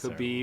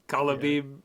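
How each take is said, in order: First: The name is said with two syllables. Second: The name is said with an extra syllable. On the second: "like Kalabib"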